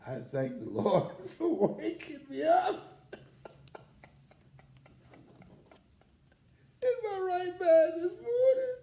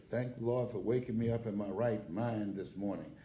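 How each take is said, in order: First: Much higher and louder, laughing and crying; laughing through tears. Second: Said in the usual way. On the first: Real, not acted. Grateful speaker thanks the Lord for his memory, laughing and crying. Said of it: "Now I say it". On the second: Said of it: "Mama said in church".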